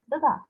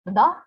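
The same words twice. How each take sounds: First: "the da" with both beats light; no punch on either part of "the da"; two unstressed syllables. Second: "The da" with firm, loud beats; both syllables stressed. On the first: Teacher contrasting pyrrhic with spondaic, both syllables unstressed. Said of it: "is photic". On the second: Teacher contrasting spondaic with pyrrhic, both syllables stressed. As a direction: put weight on both parts of "The da". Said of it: "is spondaic". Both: Shown as a demonstration.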